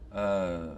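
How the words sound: The vowel stays on one steady quality. "we have something like uh"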